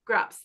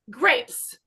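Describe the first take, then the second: First: The vowel is pronounced as an open 'ah'. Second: The vowel is pronounced as a normal 'ay'. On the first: The speaker calls it wrong. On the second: The speaker calls it right.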